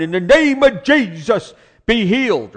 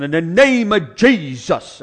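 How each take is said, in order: First: Much higher, loud and slow "be healed"; hollering prayer. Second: Loud, slow, drawn-out "In the name of Jesus"; preacher's prayer. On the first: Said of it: "he's hollering". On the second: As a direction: ham up a revival prayer. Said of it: "that way of praying". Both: Retold or imitated.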